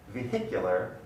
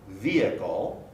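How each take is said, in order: First: Vehicular with a clear H, vee-HIK-yoo-ler; vehicular, H stressed and audible. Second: Vehicle as vee-ih-kl; vehicle, no H sound; vehicle without H. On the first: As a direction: sound the H in vehicular. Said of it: "the H is pronounced". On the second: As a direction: vehicle with the H silent. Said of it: "there's no H in the pronunciation". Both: Shown as a demonstration.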